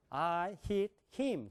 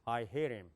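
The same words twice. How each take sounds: First: I hit him slow, word by word with full h; Korean-style English. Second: I hit him low and linked, "ai herim"; English way. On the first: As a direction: read I hit him as separate Korean syllables. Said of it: "그런 말 없어요". (한국식으로 또박또박 끊은 I hit him) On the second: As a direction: run I hit him together deep in the throat. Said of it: "제가 영어로 해볼게요". (영어식으로 낮게 굴리듯 이은 I hit him) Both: Shown as a demonstration.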